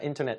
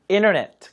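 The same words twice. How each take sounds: First: The t sound after n is lightly pronounced. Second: The t sound after n is dropped. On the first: "그냥 T 발음 살짝 하시는 게 좋습니다" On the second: "T 발음 안 하는 경우는 있는데"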